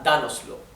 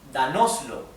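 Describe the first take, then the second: First: The stress falls on the first syllable. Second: The stress falls after the first syllable. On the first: The speaker calls it right. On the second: The speaker calls it wrong.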